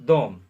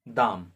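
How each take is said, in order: First: The vowel is a rounded o sound. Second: The vowel is an open a sound. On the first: "कहीं कहीं पर लोग जो होते हैं वो दोम भी बोलते हैं" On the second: "कहीं कहीं पर दाम भी बोलते हैं"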